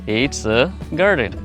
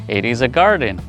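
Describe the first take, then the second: First: It and is are joined into one syllable. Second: The words it and is are said separately.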